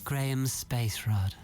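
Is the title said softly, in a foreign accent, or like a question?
softly. It is said softly, like a robot. "not too soft though. You're not a soft robot"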